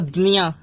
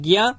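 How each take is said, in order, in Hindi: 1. अक्षर d और उसके बाद n से शुरू होता है। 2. अक्षर g की आवाज़ से शुरू होता है। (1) "महाराष्ट्र में चले जाओगे तो" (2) "हिंदी भाषी प्रदेशों में इसको पढ़ते हैं"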